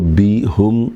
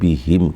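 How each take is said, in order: First: The last syllable has the vowel 'u'. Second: The last syllable has the vowel 'i'. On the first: The speaker calls it wrong. "बी हुम नहीं कहेंगे" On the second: The speaker calls it right. "बी हिम कहेंगे"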